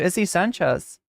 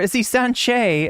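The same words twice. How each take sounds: First: It is said in a normal speaking voice. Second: It is said in a sassy put-on accent.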